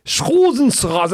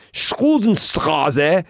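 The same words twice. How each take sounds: First: Much higher, louder, drawn-out German; exaggerated German repeat for a baffled listener; German uncle repeating. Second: Loud, high, stretched German street name; German-speaking uncle. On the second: Retold or imitated. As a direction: imitate a German uncle dictating an address. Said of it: "He goes".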